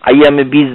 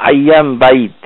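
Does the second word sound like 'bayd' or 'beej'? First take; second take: beej; bayd. First: The second word is said as 'beej'. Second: The second word is said as 'bayd'. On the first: The speaker calls it wrong. "বীজ বলে কোনো ওইখানে কিছু নাই, আইয়ামে বীজ না।" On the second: The speaker calls it right. "এটাকে বলা হয় আইয়াম বাইদ"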